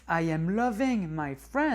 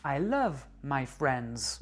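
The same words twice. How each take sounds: First: Slow, a bit louder English; wrong English phrase. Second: Slow, careful English; I love my friends said deliberately; correct English phrase. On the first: Teacher shows the learners' mistaken phrase. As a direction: present the odd form for contrast. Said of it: "c'est ultra bizarre". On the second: Teacher models the correct English phrase. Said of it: "il faut dire". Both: Shown as a demonstration.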